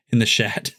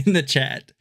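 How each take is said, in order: First: "shat" with sh sound; misread chat. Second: "chat" with a clear ch; corrected word. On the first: Slipping while reading the chat aloud. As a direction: say "shat" with an sh instead of ch. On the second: Correcting himself to the chat. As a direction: fix it to "chat" with ch. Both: Real, not acted.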